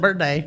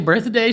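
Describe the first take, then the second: First: The word is said with a Southern accent. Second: The word is said with a standard accent. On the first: "She says birthday. ... That's because she's from the South" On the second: "the page doesn't say birthday"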